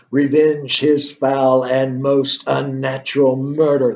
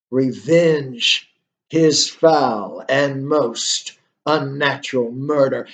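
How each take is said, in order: First: Slow, solemn ghost's command, lightly voiced. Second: Slower, drawn-out ghostly command, lightly voiced; ghost's command again. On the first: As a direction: read it slowly as the ghost's grave order. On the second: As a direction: stretch each word like the ghost demanding revenge. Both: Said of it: "And the ghost says".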